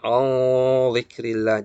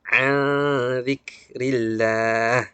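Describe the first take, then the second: First: The nasal sound before z is thick. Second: The nasal sound before z is thin. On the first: The speaker calls it wrong. "Jangan jangan kita tebalkan" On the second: The speaker calls it right. "tipis juga"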